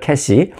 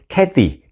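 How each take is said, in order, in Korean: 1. 가운데 자음은 s 소리입니다. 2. 가운데 자음은 t 소리입니다. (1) "한국 사람들은 이제 캐티라고 이제 안 하고 그냥 쉽게 표현을 하죠. 캐시" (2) "사실은 이제 캐, 제가 캐시라고 했지만 캐티, 캐티죠"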